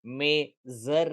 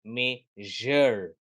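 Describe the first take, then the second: First: मेजर with a plain z, "me-zer"; wrong Z sound. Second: मेजर slowly with "zh", "me-zhur"; correct ZH sound. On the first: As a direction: say मेजर with a simple buzzing "z". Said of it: "नहीं". (मेजर में सादा "ज़" बोलें) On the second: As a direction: draw out मेजर with "zh" in the middle. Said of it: "उसका sound होगा ज". (मेजर को धीरे "मेझ़र" बोलें) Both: Shown as a demonstration.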